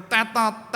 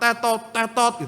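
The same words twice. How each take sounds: First: Said in the usual way. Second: "tetot, tetot" as a buzzer beep, both syllables short; imitated crossing beep. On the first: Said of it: "tetot, tetot gitu". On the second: Pastor mimicking the crossing light for the official, buzzer beep. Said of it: "lampune tetot".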